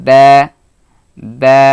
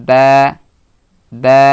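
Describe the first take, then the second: Both takes have the same delivery.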